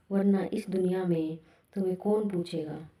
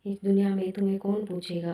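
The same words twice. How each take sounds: First: कौन stretched and stressed, unhurried; deliberate rhetorical question. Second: Fast, stress on दुनिया; brisk echo; quick repeat. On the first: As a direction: dwell on कौन पूछेगा. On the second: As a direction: rattle off इस दुनिया में तुम्हें कौन पूछेगा. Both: Shown as a demonstration. Line repeated for effect.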